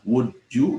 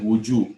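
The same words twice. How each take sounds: First: "Would you" said as two separate words; words separated. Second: "would you" run together as "wu-joo"; words linked. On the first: Teacher showing students the split form, "Would you" pronounced apart. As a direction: keep a small break between "Would" and "you". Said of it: "boleh dipisah". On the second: Teacher showing students the joined form, "would you" linked as one word. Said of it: "boleh disatukan". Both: Shown as a demonstration.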